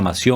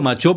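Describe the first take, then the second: First: The name is pronounced the non-Italian way. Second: The name is pronounced the Italian way. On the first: "no sé si se pronuncia Mació" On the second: "Yo le digo Machó porque es italiano"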